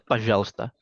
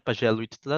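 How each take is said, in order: First: The middle vowel sound is dropped entirely. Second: The middle vowel sound is fully pronounced. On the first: The speaker calls it right. "tapi bacanya tetap Pajalsta" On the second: The speaker calls it wrong. "tulisannya Pajalwitsta"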